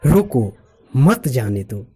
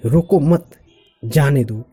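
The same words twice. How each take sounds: First: Slow "रोको", long break, then "मत जाने दो"; pause after रोको. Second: Group "रोको मत" as one command, break, then "जाने दो"; pause after मत. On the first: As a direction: say "रोको" alone, then join "मत जाने दो" slowly. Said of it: "दूसरे एक्सप्रेशन में बोल रहे हैं". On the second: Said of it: "इसी सेंटेंस को हम दूसरे expression". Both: Shown as a demonstration.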